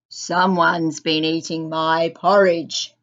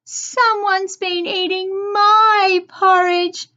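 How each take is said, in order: First: The voice is loud, deep and gruff. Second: The voice is small, high and light. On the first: "he said in a loud, gruff voice" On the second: "cried Baby Bear in a small voice"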